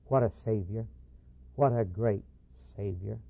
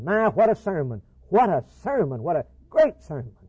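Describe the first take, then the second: First: Lower, hushed, tearful awe; quiet, choked-up wonder at the Savior; moved to tears. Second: Louder, higher, admiring exclamation; hammed-up delight at a fine sermon; impressed exclaiming. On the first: Retold or imitated. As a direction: let it fall away softly, overcome with reverence. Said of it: "Tears were in both their eyes". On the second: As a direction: gush over the sermon like a thrilled churchgoer. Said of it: "they were impressed".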